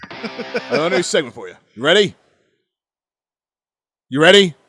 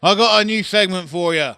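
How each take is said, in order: First: Higher, louder pushy caller; insistent caller. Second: Imitated caller. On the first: Retold or imitated. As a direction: push him, getting louder. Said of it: "This is exactly how it went". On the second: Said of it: "And you said".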